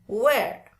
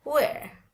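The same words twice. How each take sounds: First: "wear" with the final R sounded; the non-British "wear", R pronounced; American "wear". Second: "wear" higher, falling, no final R; British demo of "wear", R dropped. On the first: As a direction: close "wear" on an audible R. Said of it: "bukan wear". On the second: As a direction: end "wear" on the open vowel. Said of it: "Kalau British lebih seneng pakai". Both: Shown as a demonstration.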